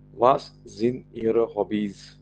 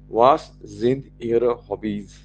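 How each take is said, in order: Both takes have the same delivery.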